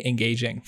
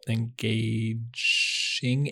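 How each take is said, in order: First: Engaging said with a clean hard g and j sound; corrected word. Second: Engaging said slowly with a soft zh sound, mispronounced; self-correcting word. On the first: Correcting engaging the second time. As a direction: fix engaging firmly. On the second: Fumbling engaging before correcting himself. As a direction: stretch out engaging, unsure of the g. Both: Real, not acted.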